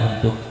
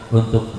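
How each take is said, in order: Both takes have the same delivery.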